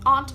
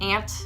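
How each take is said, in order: First: Its vowel differs from the insect word's vowel. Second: It sounds the same as the insect word. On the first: "I say aunt" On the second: "calling my aunt an ant because it feels like I'm calling her an insect"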